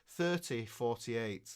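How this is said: It is said in Queen's English.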